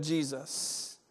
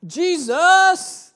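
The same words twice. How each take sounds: First: Soft, slow, settled Jesus; quiet slow Jesus. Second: High, loud ringing Jesus; shouted name. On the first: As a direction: let Jesus land quietly and slowly. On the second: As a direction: proclaim Jesus at full voice. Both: Shown as a demonstration. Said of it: "the name that we are to be shouting".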